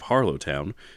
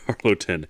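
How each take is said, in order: First: The last syllable is a full 'town'. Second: The last syllable is a reduced 'tun'. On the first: The speaker calls it wrong. "Not town. I won't say it wrong" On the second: The speaker calls it right. "It's Harloton"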